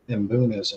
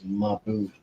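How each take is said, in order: First: It starts with a bare m sound. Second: It starts with a full ma syllable. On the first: The speaker calls it wrong. "I always say it wrong. I call them M- mbunas" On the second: The speaker calls it right. "the right way to say it is mabuna"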